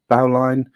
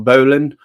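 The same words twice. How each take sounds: First: "Bowline" with OW, then a full "line"; bow-line pronunciation. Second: "Bowline" with a long O and a short "lin" ending; boh-lin pronunciation. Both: Shown as a demonstration. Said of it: "whatever you wanna pronounce it".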